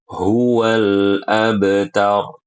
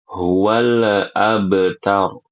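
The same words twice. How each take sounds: First: Huwal abtar slowly, lam smooth, no bounce; correct reading. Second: Huwal abtar with the lam bounced; wrong qalqalah on lam. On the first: Teacher showing the right reading. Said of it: "Yang benar". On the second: Teacher showing the wrong reading. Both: Shown as a demonstration.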